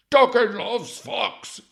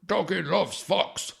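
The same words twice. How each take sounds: First: Much higher, far louder and slow; the hammed-up dog goes over the top; dopey dog voice cranked up. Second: Put-on high, slow, louder baby-talk dog; a hammed-up dog speaking through a psychic; dopey dog voice. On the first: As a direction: bellow doggy loves fox like an overexcited pet. Voicing the dog through psychic. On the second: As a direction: drag out doggy loves fox like a dim pet.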